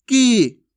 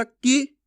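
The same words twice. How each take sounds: First: की held long and loud, "keee"; drawn-out vowel. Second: की kept brief, short "i"; short vowel. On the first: Teacher contrasting long ee with short, drawn out. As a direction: stretch की out. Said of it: "इसमें ज़्यादा समय लगेगा". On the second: Teacher contrasting short i with long, brief vowel. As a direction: clip की to a short i. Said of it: "इसमें तो कम समय लगा था". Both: Shown as a demonstration.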